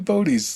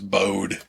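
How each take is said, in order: First: The name does not rhyme with ode. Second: The name rhymes with the word ode. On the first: "maybe Bodie's the right pronunciation" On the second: "O D E was always just kind of Ode... put a B in front of it, so it's Bode"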